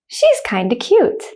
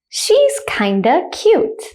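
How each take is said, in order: First: The sentence is spoken at normal speed. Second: The sentence is spoken slowly. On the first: "at a normal speed, like a native speaker" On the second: "The first time I'll say it slowly"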